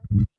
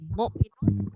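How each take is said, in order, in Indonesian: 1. Kata ini berhenti pada konsonan terakhirnya. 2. Kata ini berakhir dengan vokal dan n.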